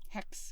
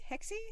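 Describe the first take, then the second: First: The word ends on the consonant, no final vowel. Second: The word ends with a pronounced final vowel. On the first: The speaker calls it right. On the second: The speaker calls it wrong.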